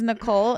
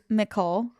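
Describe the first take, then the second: First: The name begins with an N sound. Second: The name begins with an M sound. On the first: "my sister's name is Nicole" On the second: "I would say Mickle"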